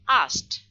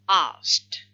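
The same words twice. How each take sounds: First: The k sound is dropped. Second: The k sound is fully pronounced. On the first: "So we drop the k, it becomes" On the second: "It's supposed to be like this, no elision. This is the complete one"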